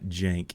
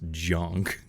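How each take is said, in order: First: The vowel sounds like the a in cat. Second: The vowel sounds like the u in cup. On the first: The speaker calls it wrong. "It's not jank" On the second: The speaker calls it right. "it's junk"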